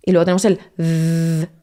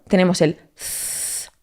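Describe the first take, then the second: First: "z" buzzed with voice like the th in this, tongue between teeth; buzzing voiced "z"; voiced z sound. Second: "z" as a soft blown th, no voice, just air through the teeth; breathy blown "z"; unvoiced z sound. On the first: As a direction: make the "z" vibrate with voice. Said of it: "otro que metes voz". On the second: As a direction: blow the "z" out like the th in think. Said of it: "uno soplas". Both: Shown as a demonstration.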